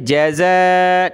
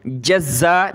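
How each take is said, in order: First: जज़ा with a single z and long held "aa"; easy, stretched. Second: जज़्ज़ा with a hard double z, "jaz-za"; doubled consonant. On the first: Teacher showing the correct reading, drawn-out single-z जज़ा. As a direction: glide from a short ja into a long zaa in जज़ा. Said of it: "इसको आपने easily पढ़ना है". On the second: Teacher showing the misreading to avoid, doubled z in जज़्ज़ा. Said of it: "जज़्ज़ा नहीं पढ़ना". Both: Shown as a demonstration.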